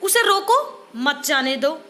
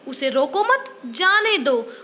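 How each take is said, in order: First: Slow, with a clear stop between रोको and मत; pause after रोको. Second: Slow, with a clear stop between मत and जाने; pause after मत. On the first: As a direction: say "उसे रोको", stop, then "मत जाने दो". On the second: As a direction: say "उसे रोको मत", stop, then a drawn-out "जाने दो". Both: Shown as a demonstration. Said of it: "विराम चिन्ह के गलत प्रयोग".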